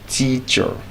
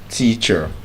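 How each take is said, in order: First: The final syllable has a weak schwa. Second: The same.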